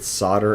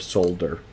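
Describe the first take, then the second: First: The word is said without an L sound. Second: The word is said with an L sound. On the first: "every time I said solder" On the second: "There's an L. Why don't you pronounce it?"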